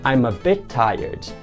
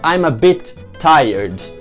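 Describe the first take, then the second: First: The two t sounds merge into one. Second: Both t sounds are pronounced separately. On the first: The speaker calls it right. "Você simplesmente junta esses dois sons e faz" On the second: The speaker calls it wrong. "Eu vou falar I'm a bit tired. Não"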